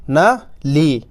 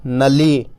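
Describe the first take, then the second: First: Short "न", pause, long "ली"; teacher splitting "न ली" into two parts; syllables sounded separately. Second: "नली" joined up, with a long final "ली"; teacher reading "नली" as one word; syllables blended. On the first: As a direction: break it into "न" ... "ली". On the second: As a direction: run "न" straight into a held "ली". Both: Shown as a demonstration. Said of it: "कैसे पढ़ेंगे?".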